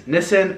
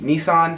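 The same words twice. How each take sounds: First: It uses the non-American pronunciation of the name. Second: It uses the American pronunciation of the name.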